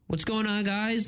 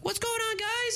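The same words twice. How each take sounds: First: It is said at normal pitch. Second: It is said in a higher pitch.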